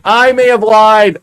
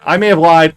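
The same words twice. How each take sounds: First: Loud, high, drawn-out confession; slow wail of owning up; dismayed admission. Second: Said in the usual way. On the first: Real, not acted. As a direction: stretch it out in rising dismay. Repeats realization with more dismay.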